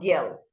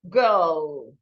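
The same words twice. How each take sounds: First: The vowel is short, without the R sound. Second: The vowel is long, shaped by the R. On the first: The speaker calls it wrong. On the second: The speaker calls it right.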